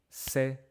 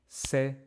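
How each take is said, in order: Both takes have the same delivery.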